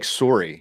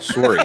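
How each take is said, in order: First: It is said in a Canadian accent. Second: It is said in the speaker's plain accent.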